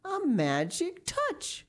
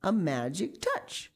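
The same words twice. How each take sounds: First: High, slow amazed repeat; dawning wonder. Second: Slow, accommodating restatement; obliging repeat. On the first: Miss Pinchin realises what she said, dawning wonder. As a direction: stretch it out high as realization dawns. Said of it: "she said again". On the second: Miss Pinchin repeats it for Lucy, mildly obliging. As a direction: repeat it slowly and helpfully. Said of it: "said Miss Pinchin obligingly". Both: A narrator's reading.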